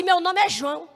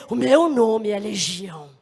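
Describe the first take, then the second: First: Said in the usual way. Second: Low, slow, drawn-out menace; name yourself slowly and low, as a demon. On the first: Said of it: "Ele não vai falar assim". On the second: Acted. Demon forced to confess its name to God, low slow voice. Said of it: "Ele vai dizer".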